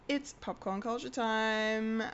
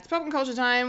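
First: It is said at a normal pace. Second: It is said faster than normal.

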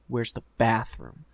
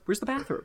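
First: It is said in a menacing, tough tone. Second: It is said in a nice, friendly tone.

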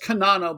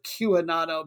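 First: The name begins with a plain 'k' sound. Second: The name begins with a 'kyoo' sound. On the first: "I'm sure it's Kanano" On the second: "I want to pronounce it Q-Anano because it's like Q"

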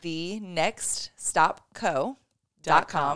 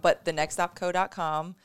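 First: It is said slowly. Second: It is said at normal speed.

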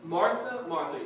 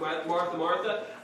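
First: It is said in a gentle, tender tone. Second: It is said in a firm, stern tone.

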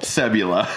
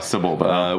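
First: The name ends with a 'la' sound. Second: The name ends with a 'ba' sound. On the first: The speaker calls it wrong. "So I've said it wrong all this time" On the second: The speaker calls it right. "They say it in the movie multiple times"

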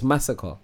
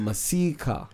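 First: The name sounds like 'massacre'. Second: The name sounds like 'Masika'. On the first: This is how people who know the name say it. The speaker calls it right. "But it's Massacre" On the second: This is how people unfamiliar with the name say it. The speaker calls it wrong. "English people that don't know how to say it call him Masika"

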